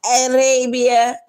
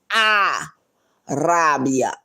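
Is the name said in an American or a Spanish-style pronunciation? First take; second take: American; Spanish-style. First: It is said with an American English pronunciation. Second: It is said with a Spanish-style pronunciation. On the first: The speaker calls it wrong. "In this country, they put the A in it" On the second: The speaker calls it right. "It's Arabia"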